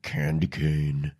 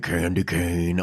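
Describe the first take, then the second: First: It is said in a deep, congested put-on voice. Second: It is said in her natural voice.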